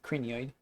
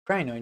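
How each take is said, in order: First: The word is said as cranioid. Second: The word is said as crinoid. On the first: The speaker calls it wrong. "not cranioid" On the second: The speaker calls it right. "Crinoid, not cranioid"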